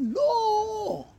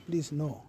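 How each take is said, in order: First: It is shouted loudly. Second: It is said calmly at normal volume.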